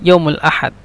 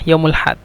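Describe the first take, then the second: First: It is said in the full standard form. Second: It is said in the shortened colloquial form. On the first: "শুদ্ধ ভাষা" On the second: "আঞ্চলিক ভাষার ক্ষেত্রে"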